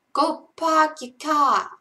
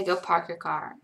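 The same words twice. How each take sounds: First: Loud, high, slow Boston accent. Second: Said in the usual way. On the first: Shown as a demonstration. Streamer performs the requested line, loud Boston accent. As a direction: draw out a Boston accent, dropping the R's. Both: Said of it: "in a Boston accent".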